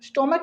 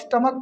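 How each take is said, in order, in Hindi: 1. पहला स्वर 'o' जैसा सुनाई देता है। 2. पहला स्वर 'uh' जैसा सुनाई देता है। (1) "स्टोमक नहीं पढ़ते" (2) "स्टमक पढ़ते हैं"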